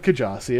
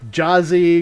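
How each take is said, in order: First: The name starts with a K sound. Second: The name starts without a K sound. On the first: The owner of the name says it this way. "But I go with, you know, Kajasi" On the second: Other people say it this way. "people go uh, Jazzy because the K is silent"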